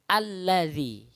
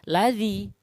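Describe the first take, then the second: First: The word starts with a vowel and doubled l. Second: The word starts directly with an l sound. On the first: The speaker calls it right. "tapi alladzi" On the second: The speaker calls it wrong. "maka bacanya bukan ladzi"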